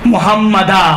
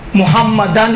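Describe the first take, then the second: First: The word ends with a long 'a' sound. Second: The word ends with an 'n' sound. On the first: The reader stops on this word. "आपने मुहम्मदन पे रुकना है, कैसे तलफ़्फ़ुज़ करेंगे?" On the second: The reading continues without stopping. "एक ऐसी जगह है जहाँ पर मुहम्मदन है"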